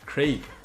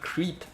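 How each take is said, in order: First: The vowel is a short 'eh' sound. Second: The vowel is a long 'ee' sound. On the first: The speaker calls it right. "I got this" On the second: The speaker calls it wrong. "Not creep"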